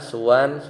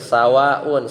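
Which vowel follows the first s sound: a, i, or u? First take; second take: u; a. First: The first vowel after s is u. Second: The first vowel after s is a. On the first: "dengan didomahkan" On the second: "dengan memfathahkan sin"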